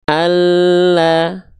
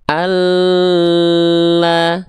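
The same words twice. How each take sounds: First: ALLAH with the doubled L pressed, not dragged; L only pressed. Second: ALLAH with the L dragged far too long; L held too long. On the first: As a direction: press the l in "Allah" firmly and move on to a. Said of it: "Dia cukup ditekan saja". ("Allah", lam cukup ditekan) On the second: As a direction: overhold the l in "Allah" on a higher, steady note. ("Allah", lam ditahan kelamaan) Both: Shown as a demonstration.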